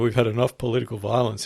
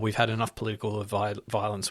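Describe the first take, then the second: First: It is said in a light, joking tone. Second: It is said in an earnest, serious tone. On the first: It is a wisecrack aimed at an unruly crowd. "he quipped" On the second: It is a sincere call to calm things down. "not in the context of like saying it ... not like that"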